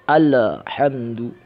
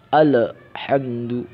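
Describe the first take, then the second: Both takes have the same delivery.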